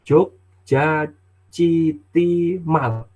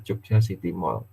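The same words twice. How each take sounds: First: Jogja City Mall spelled out slowly, mall as written; child's misreading. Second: Jogja City Mall softer, mall as English mol; corrected reading. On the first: Retold or imitated. Father imitating his child misreading Jogja City Mall. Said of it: "anak saya yang kecil itu bacanya". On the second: Shown as a demonstration. Father gently correcting the child's Jogja City Mall. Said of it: "kemudian saya betulkan".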